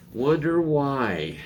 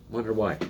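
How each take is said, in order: First: Higher, slow drawn-out wonder why; sarcastic wonder why. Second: Said in the usual way. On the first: Shown as a demonstration. Vlogger mocking climate claims, slow sarcastic wonder why.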